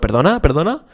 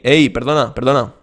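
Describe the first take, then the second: First: The pitch goes up, sounding like asking permission. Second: The pitch goes down across the phrase.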